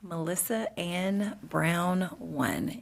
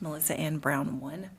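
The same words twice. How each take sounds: First: It is said slowly and carefully. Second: It is said at normal, quick pace.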